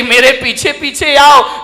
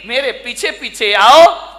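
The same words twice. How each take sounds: First: Said in the usual way. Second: Put-on slow, lisping little girl, rising at the end; lisping child voice. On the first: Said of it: "ये बच्ची कह रही". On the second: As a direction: babble it like a small child leading the way. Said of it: "तुतलाते हुए बोली".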